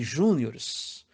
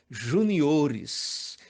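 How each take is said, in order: First: The stress is on the first syllable. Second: The stress is on the third syllable. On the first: The speaker calls it wrong. "Se você pronuncia campeonato de júniores, sinto informar" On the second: The speaker calls it right. "o certo é juniores"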